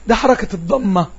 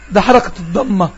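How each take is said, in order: Both takes have the same delivery.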